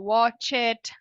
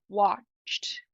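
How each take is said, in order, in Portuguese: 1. A palavra termina com uma sílaba extra de vogal. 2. A palavra termina diretamente com um som de t. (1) "você vai querer falar watch it, mas não é nenhum dos dois" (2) "é watched"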